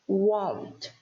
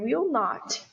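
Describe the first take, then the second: First: The words are merged into one syllable. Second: Two separate full words are said. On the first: "ele vai virar won't" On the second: "o will not"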